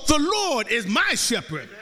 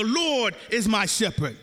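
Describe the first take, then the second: First: "my" stands out as the personal claim; stress on MY. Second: "Lord" carries the weight, "is my shepherd" falls away; stress on LORD. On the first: Preacher shows a changed meaning by intonation, stress on "my". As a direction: hit "my" firmly, falling through "shepherd". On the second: Preacher shows intonation to the congregation, stress on "Lord". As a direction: lean on "Lord", then let the rest drop. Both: Shown as a demonstration. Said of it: "you ain't saying the same thing".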